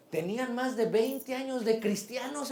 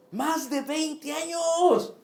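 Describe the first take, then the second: First: Said in the usual way. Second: Higher, very slow, stretching each word; preacher stressing how long they served; slow emphatic repeat. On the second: Acted. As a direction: lean hard on "Más de veinte años" slowly.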